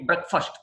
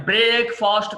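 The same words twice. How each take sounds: First: బ్రేక్ఫాస్ట్ as short "brek-fust"; one quick word, short vowels in బ్రేక్ఫాస్ట్; correct pronunciation. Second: బ్రేక్ఫాస్ట్ as long "brake-fahst"; mistaken pronunciation. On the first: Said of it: "అది single word కాబట్టి". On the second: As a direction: draw out both vowels of బ్రేక్ఫాస్ట్. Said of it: "బ్రేక్ఫాస్ట్ కాదండి". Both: Shown as a demonstration.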